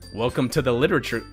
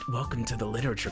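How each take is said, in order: First: It is said in the speaker's ordinary voice. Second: It is said in a new put-on character voice. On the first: The speaker calls it wrong. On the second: The speaker calls it right.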